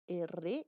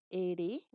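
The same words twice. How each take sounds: First: "R" named as "erre", with a rolled trill; trilled R demonstration. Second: "R" named as "ere", with a single light tap; tapped R demonstration. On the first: Teacher showing tongue vibration, careful rolled "R" as "erre". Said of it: "el ápice de la lengua tiene una vibración". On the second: Teacher showing tongue vibration, careful tapped "R" as "ere". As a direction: say "R" slowly as "ere", tongue tapping once. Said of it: "si tú pronuncias R o R". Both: Shown as a demonstration.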